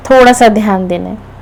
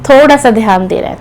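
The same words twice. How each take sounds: The two takes are said the same way.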